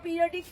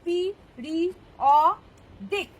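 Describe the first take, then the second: First: Said in the usual way. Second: "periodic" very slowly in four parts, পি, রি, অ, ডিক; split into syllables. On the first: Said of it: "আমরা periodic table যেমন বলি". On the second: Shown as a demonstration. Teacher counting syllables aloud, "periodic" broken into four. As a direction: pause after each syllable of "periodic". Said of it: "কটা syllable রয়েছে?".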